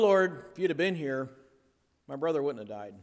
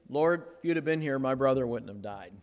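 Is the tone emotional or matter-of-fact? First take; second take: emotional; matter-of-fact. First: It is said in an emotional, reproachful tone. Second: It is said in a flat, matter-of-fact tone. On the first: The speaker feels hurt and reproachful. "there was probably some emotion involved" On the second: It is a simple statement of fact. "just very matter-of-fact and just made a statement"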